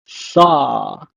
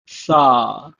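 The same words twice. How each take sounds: First: Sa said with s, not sh; Hebrew pronunciation. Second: Sa repeated with s, not sh; Hebrew pronunciation. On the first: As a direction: model Sa with a clear s. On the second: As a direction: model Sa again with s. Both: Shown as a demonstration. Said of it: "pronounced as".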